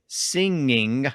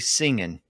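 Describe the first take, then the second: First: The word ends with the full ng sound. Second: The word ends with a plain n sound. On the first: This is the standard form. "instead of saying" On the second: This sounds colloquial or non-standard today. "the entire G sound disappeared at the end of those words"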